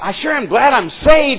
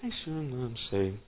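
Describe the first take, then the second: First: The sentence is said out loud, openly. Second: The sentence is said very quietly, almost hidden. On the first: The speaker is happy for others to hear. The speaker calls it right. "instead of" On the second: The speaker hopes nobody hears it. The speaker calls it wrong. "Good, nobody heard me"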